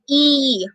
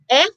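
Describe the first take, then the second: First: It is the long vowel, sounding like ee. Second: It is the short vowel, sounding like eh.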